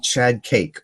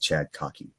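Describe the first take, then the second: First: The second word sounds like 'cake'. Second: The second word sounds like 'cocky'. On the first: It is the name as friends read it in English. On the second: It is the name as he says it himself.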